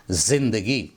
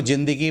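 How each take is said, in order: First: 'ज़िंदगी' with a buzzing initial z; correct pronunciation. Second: 'ज़िंदगी' starting with j instead of z; common mispronunciation. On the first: Teacher shows what should be said, correctly. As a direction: start 'ज़िंदगी' on a clear z. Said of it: "इसको बोलना चाहिए". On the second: Teacher quotes what people say, mispronounced. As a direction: say 'ज़िंदगी' with a j sound. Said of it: "ये गलत तलफ़ुज़ है". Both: Shown as a demonstration.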